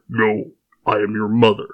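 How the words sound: It is said in a Darth Vader voice.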